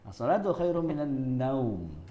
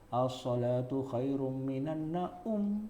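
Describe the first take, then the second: First: The last word's 'au' is one gliding vowel. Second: The last word's 'a' and 'u' are separate syllables. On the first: The speaker calls it right. "Nah, begitu" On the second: The speaker calls it wrong. "bukan gitu"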